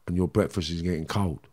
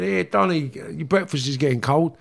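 First: Lower, softer, scornful repeat; quietly mocking the brother's words; bitter echo. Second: Higher, casual call from the next room; brother calling out. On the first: Real, not acted. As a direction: throw the line back with contempt. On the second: Retold or imitated. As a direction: call him in for breakfast, offhand. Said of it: "his brother's called him and said".

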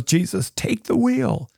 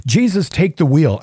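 First: Lightly sung high plea; a hint of a country singer begging; frustrated plea. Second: Said in the usual way. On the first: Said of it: "She's this all frustrated, needs help, and says". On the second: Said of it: "[name]'s song".

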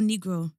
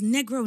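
First: "Negro" with a long ee, NEE-gro; alternative pronunciation. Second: "Negro" with a short e, NEH-gro; first pronunciation. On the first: Unsure how to say his name, offering "Negro" as NEE-gro. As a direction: say "Negro" with first vowel as in "see". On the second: Unsure how to say his name, offering "Negro" as NEH-gro. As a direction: say "Negro" with first vowel as in "bed". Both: Shown as a demonstration. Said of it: "I don't know how to say his name".

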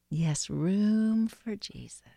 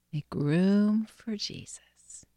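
First: Slow spoken prayer, not whispered; voiced breath prayer. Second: Whispered breath prayer. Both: Real, not acted. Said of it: "pray this breath prayer".

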